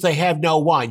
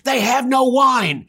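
First: It is said calmly. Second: It is said explosively.

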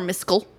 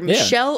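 First: The middle sound is 'sk', as in Miskel. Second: The middle sound is 'sh', as in Michelle. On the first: "So either Michelle or Miskel" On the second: "So either Michelle or Miskel"

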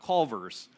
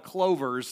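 First: The name begins with a 'cul' sound. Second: The name begins with a 'clo' sound. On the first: This is the actual name of the place. The speaker calls it right. "not Culver's" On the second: This is how the children mispronounce the name. The speaker calls it wrong. "they can't quite say the name of it, so they call it Clovers"

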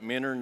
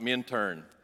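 First: The name is said without a middle t. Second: The name is said with a middle t. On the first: The speaker is a local. The speaker calls it right. "If you don't pronounce it Minnern, you're not from here" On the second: The speaker is not a local. The speaker calls it wrong. "It's not Minturn"

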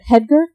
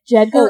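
First: The name begins with a soft H-like sound. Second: The name begins with a hard J sound.

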